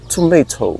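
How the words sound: It is British, with a crisp t. "She taught me to pronounce this as tomato... very enunciated the T"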